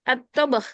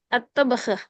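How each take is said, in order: No difference in how they are said.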